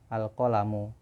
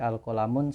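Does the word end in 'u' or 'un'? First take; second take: u; un. First: The word ends on a plain u vowel. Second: The word ends with a final n sound. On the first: The speaker calls it right. "harusnya al-qalamu" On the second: The speaker calls it wrong. "al-qalamun salah"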